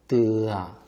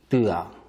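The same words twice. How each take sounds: First: The vowel is long. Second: The vowel is short. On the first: "길게" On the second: "짧게"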